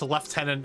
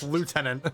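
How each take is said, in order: First: The first syllable is said with an F sound. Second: The first syllable is said without an F sound. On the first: The speaker calls it wrong. "why the fuck is it sometimes pronounced lieutenant if there's no P H or F?" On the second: The speaker calls it right. "It should be pronounced lieutenant"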